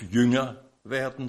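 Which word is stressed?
Jünger. The stress falls on the first word. The focus is on being a disciple. The speaker calls it wrong. "Die Betonung liegt nicht auf"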